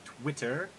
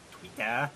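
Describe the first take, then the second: First: Said in the usual way. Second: "Twitter" tried in a British accent, ending "Twitæ"; half-hearted British "Twitter", quickly abandoned; failed British accent. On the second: Shown as a demonstration. Host plugging his Twitter tries a weak British accent. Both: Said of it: "I can't do my British accent".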